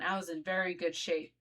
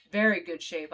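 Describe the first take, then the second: First: Said in the usual way. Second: Very good shape, louder and leaning hard on very; stress on very. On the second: Retold or imitated. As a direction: punch the word very, repeating it for emphasis.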